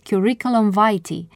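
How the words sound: It is pronounced the English way.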